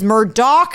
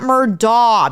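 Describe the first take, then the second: First: The name ends with a k sound. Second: The name ends without a k sound. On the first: The speaker calls it right. "It is Murdoch" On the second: The speaker calls it wrong. "not Murdaugh"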